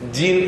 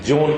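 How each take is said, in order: First: The name is said with an 'ee' vowel. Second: The name is said with an 'o' vowel. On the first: This is how the spelling is usually read locally. The speaker calls it wrong. "ஜீன் என்றுதான் நமக்கு படிக்க தெரியும்" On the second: This is how French speakers say the name. The speaker calls it right. "அவர்கள் அதை பிரெஞ்சில் ஜோன் என்கிறார்கள்"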